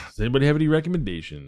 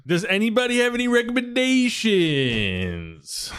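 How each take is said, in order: First: Fast, throwaway re-ask at normal pitch; a hurried second ask; rapid repeat. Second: A lazy, sing-song ask to everyone. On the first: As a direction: rattle the same question off quickly. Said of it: "quick repeat of same question". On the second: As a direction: draw the question out long and high. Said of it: "drawn-out call to the group". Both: Pretend.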